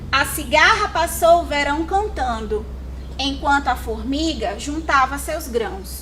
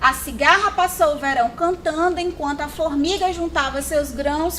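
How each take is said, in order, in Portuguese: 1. Ela é lida com uma pausa depois de cantando. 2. Ela é lida de uma vez, sem nenhuma pausa. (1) "agora com as devidas pontuações" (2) "é um texto corrido, eu não tive sequer pausa para respirar"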